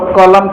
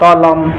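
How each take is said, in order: First: The word begins with a k sound. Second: The word begins with a t sound. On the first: The speaker calls it right. "कलम को" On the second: The speaker calls it wrong. "बच्चा में हम लोग होते हैं तो ... कहते हैं तलम"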